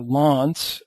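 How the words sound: The name is said in a British accent.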